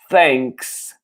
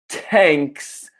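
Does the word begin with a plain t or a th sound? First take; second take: th; t. First: It begins with a th sound, tongue between teeth. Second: It begins with a plain t sound. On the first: The speaker calls it right. "The pronunciation is thanks. Basta parlare con la lingua tra i denti" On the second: The speaker calls it wrong. "it's not thanks"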